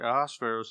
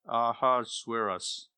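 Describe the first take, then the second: First: The name is said with a Hebrew pronunciation. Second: The name is said with an English pronunciation. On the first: The speaker calls it right. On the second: The speaker calls it wrong.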